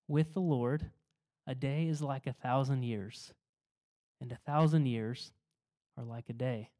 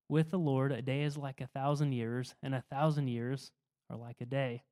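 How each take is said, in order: First: It is read slowly and deliberately. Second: It is read at a normal pace.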